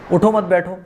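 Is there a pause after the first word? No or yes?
no. There is no pause after the first word. The listener is told not to get up but sit. "अगर आप उठो के बाद रुके ना"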